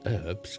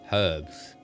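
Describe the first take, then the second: First: The word starts with a vowel, no h sound. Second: The word starts with a clear h sound. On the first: The speaker calls it wrong. "It's not herbs because it's got" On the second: The speaker calls it right. "with an H"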